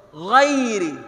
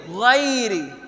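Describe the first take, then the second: Both takes have the same delivery.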